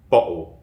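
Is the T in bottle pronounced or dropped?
dropped. The T is dropped, replaced by a glottal stop.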